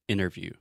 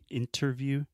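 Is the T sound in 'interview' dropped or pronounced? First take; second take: dropped; pronounced. First: The T sound after the N is dropped. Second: The T sound after the N is pronounced. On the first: "I do not pronounce the T" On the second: "I'm not saying interview"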